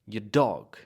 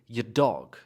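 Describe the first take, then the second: No difference in how they are said.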